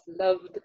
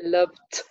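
First: The word ends in a voiced d sound. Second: The word ends in a voiceless t sound. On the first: The speaker calls it right. "we add the voiced allomorph, ... it's easier to pronounce loved" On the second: The speaker calls it wrong. "That's very exhausting to say it like that"

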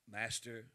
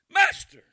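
First: It is said calmly and plainly. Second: It is said in a frantic, panicked way.

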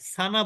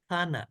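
First: The first consonant is a plain s sound. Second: The first consonant is a th sound. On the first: The speaker calls it wrong. "সানা বলবেন, কিন্তু এটা কিন্তু সানা না" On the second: The speaker calls it right. "জিহ্বার আগা উপরের দাঁতের আগা, এখানে যুক্ত করলেই এই অক্ষরটা উচ্চারিত হবে"

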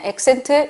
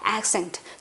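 First: The first vowel is flat and less open. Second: The first vowel is wide with the jaw dropped. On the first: The speaker calls it wrong. "그냥 accent 이게 아니에요" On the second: The speaker calls it right. "조금 더 영어다운 소리가 나죠?"

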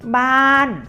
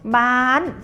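First: The syllable has a falling tone. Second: The syllable has a high tone. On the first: "บานเสียงโท" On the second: "บานเสียงตรี"

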